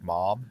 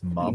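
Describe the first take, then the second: First: The vowel is an open 'ah' sound. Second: The vowel is a short 'uh' sound. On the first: "instead of M O M, like mom" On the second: "It's mum"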